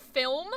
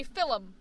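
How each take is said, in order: First: Said in the usual way. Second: "film" said as FIL-um, two syllables; extra vowel. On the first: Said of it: "because instead of film". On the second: Shown as a demonstration. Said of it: "Like, there's an extra I".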